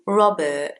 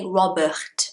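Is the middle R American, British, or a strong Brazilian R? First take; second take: British; strong Brazilian. First: The R in the middle is very small. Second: The middle R is a strong throaty R. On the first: The speaker calls it right. "So in British English, the R in the middle is very small" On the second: The speaker calls it wrong. "you cannot say"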